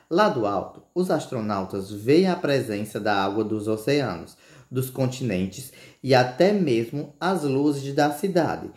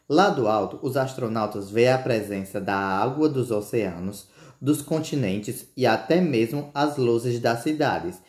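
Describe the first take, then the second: First: It is read with pauses at the commas. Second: It is read quickly without pausing at commas.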